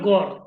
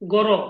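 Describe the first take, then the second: First: The word ends on the r consonant. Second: The word ends with a vowel after r. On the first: "এই তিনটি যদি নেই তাহলে এর উচ্চারণটা হবে গড়" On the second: "জি এ আর এ। ইংরেজিতে যদি বলি বা বাংলায় বললে হবে গর"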